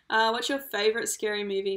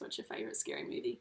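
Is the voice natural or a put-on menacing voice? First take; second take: natural; put-on. First: It is said in a plain natural voice. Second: It is said in a put-on menacing voice.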